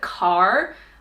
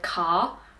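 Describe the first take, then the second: First: The final R sound is clearly pronounced. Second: The final R sound is dropped. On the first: "rhotic R is where you say that R sound, like car" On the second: "Australians say car. We don't really articulate our R's"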